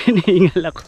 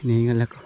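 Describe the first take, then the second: First: Hinihingal ako laughed out, higher and fast; laughing out of breath. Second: Said in the usual way. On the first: Real, not acted. Vlogger laughs at himself for panting on the climb. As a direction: laugh at your own panting.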